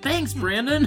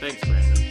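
First: It is said cheerfully, with enthusiasm. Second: It is said grudgingly, without enthusiasm.

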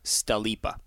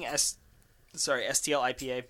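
First: The name is blended into one word, sta-leap-a. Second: The name is said as separate parts. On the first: The speaker calls it right. "It is pronounced... Stalipa" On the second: The speaker calls it wrong. "we keep saying STL IPA"

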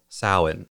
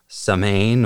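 First: It is pronounced unlike its spelling. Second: It is pronounced the way it is spelled. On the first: The speaker calls it right. "it's actually pronounced Samhain" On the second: The speaker calls it wrong. "spelled as though it would be pronounced Samhain"

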